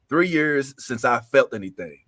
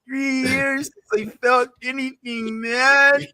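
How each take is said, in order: First: It is read in a plain reading voice. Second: It is read in Michelangelo's angry voice.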